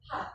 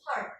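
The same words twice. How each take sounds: First: Heart with no r, long vowel; British heart. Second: Heart with the r sounded; American heart. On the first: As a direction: heart said as hahht. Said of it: "In general British". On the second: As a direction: heart with an r before the t. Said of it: "In general American". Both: Shown as a demonstration.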